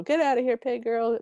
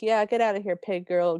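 First: Higher-pitched step-family jeer; mock call-out, pitched up; second heckling voice. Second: Mock call-out from one of the family; jeering step family. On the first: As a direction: echo the taunt in a different, higher voice. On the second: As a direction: call it after someone leaving. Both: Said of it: "They do different voices".

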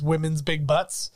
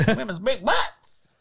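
First: Lightly voiced Sinbad, a bit slow; deadpan the line, drawing it out a little; Sinbad's one line. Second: Higher, slow put-on Sinbad voice; goofy Sinbad echo. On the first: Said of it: "the only thing he says is". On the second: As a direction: stretch each word out in a silly voice. Echoing the imagined Sinbad line.

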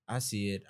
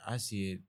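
No difference in how they are said.

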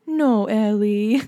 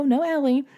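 First: Slow, drawn-out mock pout; sad toddler. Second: Said in the usual way. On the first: Toddler separated from her sister at nap, sad little voice. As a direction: imitate a little one missing someone, dragging the words. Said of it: "She was, like, really sad". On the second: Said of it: "And I'd say".

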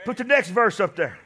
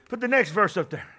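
No difference in how they are said.

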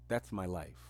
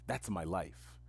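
Both takes have the same delivery.

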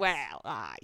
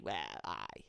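First: Lower, quiet "Well, aye" in a soft Geordie lilt. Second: Whispered "well, aye", Geordie. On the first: Showing her friend her real Geordie phrase, low. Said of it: "I say, like". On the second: Showing her friend how she says it, whispered. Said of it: "I go". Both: Shown as a demonstration.

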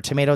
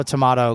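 First: "Tomato" with a long AY in the middle; to-MAY-to. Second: "tomato" with an open AH in the middle; to-MAH-to. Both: Shown as a demonstration.

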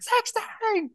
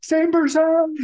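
First: High squeal. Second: Panicked yell. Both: Retold or imitated. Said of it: "Home Alone moment".

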